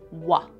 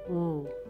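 First: The consonant is followed by a short vowel. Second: The consonant is said alone without a vowel. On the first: The speaker calls it wrong. "But what do we hear at the end? Another schwa" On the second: The speaker calls it right. "W says w"

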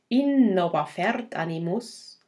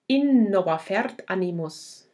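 First: Stresses fall on the verse beats, not word accents. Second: Stresses fall on the word accents, not verse beats. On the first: "Hoc legi cum ictu" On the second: "without ictus"

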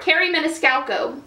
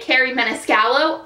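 First: The surname is said with an extra k sound. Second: The surname is said without an extra k sound. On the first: The speaker calls it right. "I did not know there was another C" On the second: The speaker calls it wrong. "I've always been saying her name wrong"

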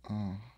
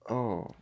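First: It sounds like a weird moan. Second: It sounds like a plain exclamation.

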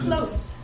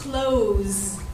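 First: The final consonant is a voiceless s sound. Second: The final consonant is a voiced z sound. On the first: It is used as a noun or adjective. "a noun or an adjective" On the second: It is used as a verb. "the same word used as a verb"

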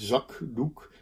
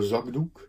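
First: The middle consonant is a voiceless k sound. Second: The middle consonant is a voiced g sound. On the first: The speaker calls it wrong. "In zakdoek zeg je niet" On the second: The speaker calls it right. "En daar zeg je dus een ge in"

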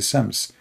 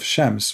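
First: The word begins with a plain 's' sound. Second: The word begins with a 'sh' sound. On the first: "Shams in some area, they say Sams" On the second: "Instead of Shams"

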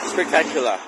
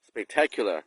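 First: The stress is not on the second syllable. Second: The stress is on the second syllable. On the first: The speaker calls it wrong. "ผมมักจะพูดผิดก็คือ stress เสียงอะเน้นเสียงหนักผิด" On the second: The speaker calls it right. "หนักที่คำว่า tech"

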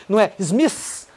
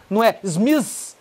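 The two takes are said the same way.

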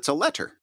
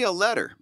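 First: The middle consonant is a crisp hard T. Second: The middle consonant is a soft D sound. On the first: It is said so listeners get the spelling. "if I'm saying it on a podcast and somebody has to get to the URL" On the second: It is casual everyday speech. "To you personally"

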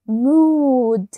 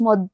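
First: The vowel is said long and drawn out. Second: The vowel is said short and clipped. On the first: The speaker calls it right. "عايزاها تبقى long" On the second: The speaker calls it wrong. "مود ديت شورت او"

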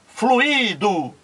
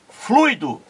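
First: The word has three syllables, u and i separated. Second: The word has two syllables, a gliding diphthong. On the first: "três sílabas" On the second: "duas sílabas"

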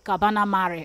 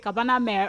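First: The name is said the way Greeks say it. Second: The name is said the way non-Greeks say it. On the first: This is how locals say it. "the Greek love to call it Cabana Mare" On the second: This is how outsiders say it. "non-speak will say Cabana Mare"

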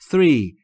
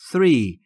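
First: The word begins with a soft th sound. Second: The word begins with a soft th sound.

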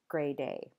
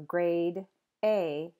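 First: The d starts the second word, sounding linked. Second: The d ends the first word, kept separate.

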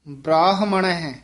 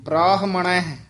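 The two takes are said the same way.

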